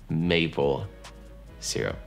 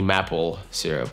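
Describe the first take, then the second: First: The first vowel is long, as in may. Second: The first vowel is short, as in map. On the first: The speaker calls it right. "это maple syrup" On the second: The speaker calls it wrong. "Но это не maple syrup"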